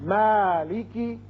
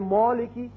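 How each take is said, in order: First: The long vowel is thin and light. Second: The long vowel is full and heavy. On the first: The speaker calls it right. "अलिफ भी बारीक होगा" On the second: The speaker calls it wrong. "ये गलत है"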